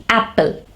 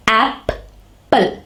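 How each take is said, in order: First: Said in the usual way. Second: "Apple" in two beats, ap, pause, ple; split into syllables. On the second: Shown as a demonstration. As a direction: break "Apple" apart: ap... ple. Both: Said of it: "there are two syllables".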